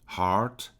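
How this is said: The R sound is clearly pronounced. "A gente ouve mais o R no, no inglês americano"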